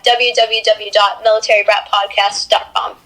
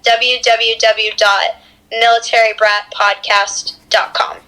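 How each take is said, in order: First: It is said fast. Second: It is said slowly.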